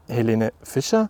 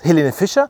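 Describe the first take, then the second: First: The name is said with dismayed disbelief. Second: The name is said with excited enthusiasm. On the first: The listener does not like the singer. "oder nicht ... Oder alternativ" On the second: The listener thinks the singer is cool. "ob du sie cool findest"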